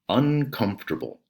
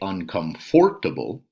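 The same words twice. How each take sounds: First: The syllables are squeezed together into fewer sounds. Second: Every syllable is pronounced fully and separately. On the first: The speaker calls it right. "it's kind of all smushed together there" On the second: The speaker calls it wrong. "We don't say"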